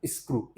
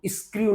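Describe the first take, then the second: First: स्क्रू as "iskroo", plain "oo", softer; correct pronunciation. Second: स्क्रू stretched to "iskri-yoo"; wrong pronunciation. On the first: Teacher answering his own question, correct pronunciation. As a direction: say स्क्रू with no y-glide. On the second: Teacher showing what not to say, wrong pronunciation. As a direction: put a y-glide into स्क्रू. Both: Shown as a demonstration. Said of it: "स्क्रू नहीं बोलेंगे".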